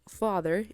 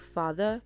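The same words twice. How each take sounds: First: The R sound after the vowel is pronounced. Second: The R sound after the vowel is dropped.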